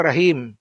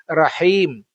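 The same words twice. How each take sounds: First: Rahim with a harsh kh-like ha; wrong pronunciation. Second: Rahim with a breathy h and a light i; correct pronunciation. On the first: Teacher contrasting a wrong rahim for students. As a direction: say rahim with a rough throat h. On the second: Teacher contrasting correct Rahim for students. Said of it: "bukan rahim". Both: Shown as a demonstration.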